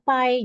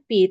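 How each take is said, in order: First: It is pronounced the English way. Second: It is pronounced the usual Indonesian way. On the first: This is how it is said universally. The speaker calls it right. "secara universal kita bacanya pi" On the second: This is how people here usually say it. The speaker calls it wrong. "kalau kita biasa menyebutnya pi"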